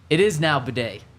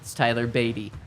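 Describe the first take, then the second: First: The surname ends with an 'ay' sound. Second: The surname ends with an 'ee' sound. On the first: This is how the name is said now. "he decided to change the way his name is pronounced. It is now Bidet" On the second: This is how the name was said before. "It's not Batty, it's Tyler Beatty"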